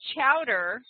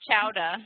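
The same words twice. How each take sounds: First: It is said with the final R pronounced. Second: It is said Boston-style, dropping the final R.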